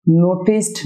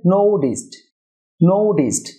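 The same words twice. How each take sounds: First: নোটিসড with a hard t, "no-tist"; wrong pronunciation. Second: নোটিসড as "NOU-dist", t turned to d; correct pronunciation. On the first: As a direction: keep a clear t in the middle of নোটিসড. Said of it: "না হয়ে হবে". (নোটিসড-এর ভুল উচ্চারণ, স্পষ্ট "ট") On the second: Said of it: "টি এর sound সাধারণত". (নোটিসড-এর সঠিক উচ্চারণ, "নোউডিস্ট") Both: Shown as a demonstration.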